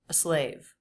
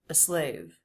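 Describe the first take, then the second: First: The article is slightly detached from the next word. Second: The same.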